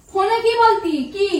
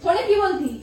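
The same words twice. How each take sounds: First: Confronting the husband, demanding; sharper repeat. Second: Said in the usual way. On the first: Acted. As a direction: press the question harder.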